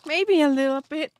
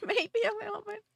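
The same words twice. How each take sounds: First: Said in the usual way. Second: Giggled out, higher and fast; laughing. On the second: Real, not acted. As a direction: laugh through the repeat, quieter. Retake said through laughter.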